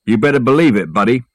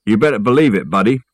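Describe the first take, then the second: First: Lightly put-on tough movie-star voice; amateur film-star impression; Humphrey Bogart. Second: Lightly put-on movie-gangster voice; barely different amateur film-star impression; Jimmy Cagney. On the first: The speaker showing off to his workmate, mild Bogart impression. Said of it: "I said in my best Bogart voice". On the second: The speaker proving his range to a doubter, mild Cagney impression. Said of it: "This is my Jimmy Cagney voice".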